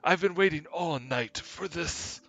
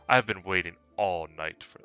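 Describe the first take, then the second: First: It is said in the prince's character voice. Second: It is said in the speaker's own voice.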